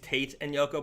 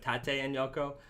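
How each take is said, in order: First: Tate is pronounced like an English word. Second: Tate is pronounced as a Japanese word. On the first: This is how many customers assume it is said. The speaker calls it wrong. "a lot of people do think it's" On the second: This is the intended name from the Japanese words. The speaker calls it right. "but it's"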